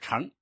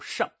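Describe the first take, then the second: First: The syllable is said in a non-fourth tone. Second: The syllable is said in the fourth tone. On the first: This is the everyday reading meaning to ride. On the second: This is the old reading for a vehicle.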